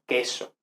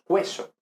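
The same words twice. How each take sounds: First: Said in the usual way. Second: "cueso" said KWE-so; "cueso" with a kw glide; U pronounced. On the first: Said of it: "Decimos queso". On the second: Shown as a demonstration. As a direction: sound the U in "cueso". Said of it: "no leemos cueso".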